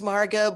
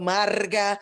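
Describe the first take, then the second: First: The name is said with an English pronunciation. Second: The name is said with a Spanish pronunciation. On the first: "My name is Marga"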